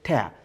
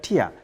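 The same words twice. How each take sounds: First: It is pronounced like the ripping word. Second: It is pronounced like the crying word. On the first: To break something into pieces. "But if you break something into pieces, you say tear" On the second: A drop that falls when you cry. "When you are referring to the word that comes out of your mind, if you cry, we call that tear"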